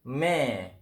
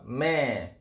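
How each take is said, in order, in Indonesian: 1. Vokalnya berbunyi seperti e. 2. Vokalnya berbunyi seperti e.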